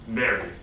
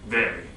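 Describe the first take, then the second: Both takes have the same delivery.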